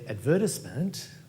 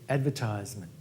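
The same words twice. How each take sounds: First: The word is said with a British pronunciation. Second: The word is said with an American pronunciation. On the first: "that's an Australian or a British pronunciation" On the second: "if an American would, were to say that word, they'd say"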